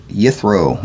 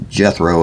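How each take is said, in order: First: Yithro said YITH-roh; Y pronunciation. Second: Jethro said JETH-roh; English J pronunciation. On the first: Reader naming the father-in-law, Yithro with initial Y. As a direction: begin Yithro with a Y sound. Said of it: "or Jethro as it would probably be pronounced". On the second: Reader explaining English spelling, Jethro with initial J. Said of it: "'cause the Y is always". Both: Shown as a demonstration.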